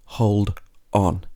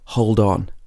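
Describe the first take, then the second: First: The two words are said separately. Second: The final d runs into the next word. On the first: The speaker calls it wrong. "not hold on" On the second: The speaker calls it right. "these two words are connecting together as one word. Hold on"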